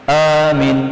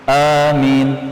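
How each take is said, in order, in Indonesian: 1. Vokal pertama panjang, yang kedua pendek. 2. Vokal pertama panjang, yang kedua pendek.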